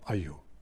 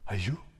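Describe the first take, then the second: First: It sounds like reacting to bad news. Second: The same.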